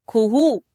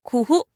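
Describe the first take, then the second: First: खुहू with drawn-out oo vowels; long oo. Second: खुहू with short, quick u sounds. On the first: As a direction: stretch the oo in खुहू, especially the last. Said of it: "बड़ी ऊ की मात्रा लगाएंगे". (बड़े ऊ की मात्रा, दीर्घ उच्चारण) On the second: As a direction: keep both vowels in खुहू brief. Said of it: "छोटे ऊ की मात्रा लगाएंगे". (छोटे उ की मात्रा, ह्रस्व उच्चारण) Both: Shown as a demonstration.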